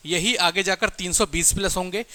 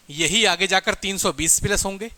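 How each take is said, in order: Both takes have the same delivery.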